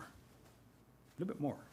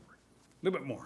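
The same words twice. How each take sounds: First: Slow, very soft whisper; whispered coaxing. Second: Softly spoken, slightly hushed nudge; quiet coaxing. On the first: Thunder easing turtle further out of the way, whispered. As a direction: barely breathe it, drawn out. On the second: Thunder moving turtle out of the way, softly. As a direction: coax him along in a soft voice. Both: Acted.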